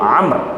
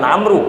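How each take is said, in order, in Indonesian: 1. Namanya berakhir dengan konsonan r. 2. Namanya berakhir dengan vokal u tambahan. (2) "Sebenarnya bukan Amru"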